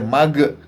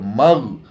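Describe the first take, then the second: First: The final consonant ends with an added echo vowel. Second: The final consonant stops cleanly without an echo. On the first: The speaker calls it wrong. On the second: The speaker calls it right.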